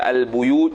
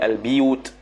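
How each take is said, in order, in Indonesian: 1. Vokal setelah b adalah u. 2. Vokal setelah b adalah i. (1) "baca al-buyut" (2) "jadi al-biyut"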